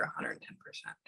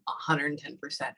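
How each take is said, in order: First: Barely voiced, very soft murmur; whispered aside. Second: Said in the usual way. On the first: Real, not acted. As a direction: whisper it to yourself. Muttering a received message to herself.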